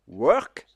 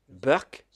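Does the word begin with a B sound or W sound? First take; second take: W sound; B sound. First: The word begins with a W sound. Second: The word begins with a B sound.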